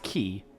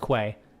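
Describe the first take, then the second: First: The word sounds like 'key'. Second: The word sounds like 'kway', rhyming with 'way'. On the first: The speaker calls it right. "I know it's pronounced key" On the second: The speaker calls it wrong. "I did used to pronounce it as as as it's spelled"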